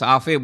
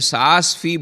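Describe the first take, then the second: First: The name is said as 'saafe'. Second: The name is said as 'saas fee'. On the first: The speaker calls it right. "नहीं उसको साफ़े बोलते हैं" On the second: The speaker calls it wrong. "मैं सास फी बोलता था"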